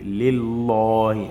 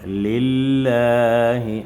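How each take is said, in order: First: The L is heavy, said with a full mouth. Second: The L is light, said with a relaxed mouth. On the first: The speaker calls it wrong. "on ne dit plus" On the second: The speaker calls it right. "on va pratiquer l'amincissement de la bouche"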